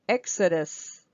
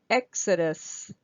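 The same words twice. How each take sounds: Both takes have the same delivery.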